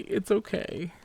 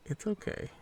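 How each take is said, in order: First: Higher, coaxing it's okay to a buddy; higher, tender reassurance to a weak companion; reassuring. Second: Higher and softer it's okay, almost hushed; higher, hushed it's okay for a weak companion; soft reassuring. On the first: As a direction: soothe the little guy, lifted pitch. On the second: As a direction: whisper comfort to the little guy. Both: Pretend. Comforting weak game character.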